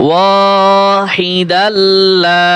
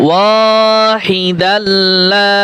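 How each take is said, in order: No difference in how they are said.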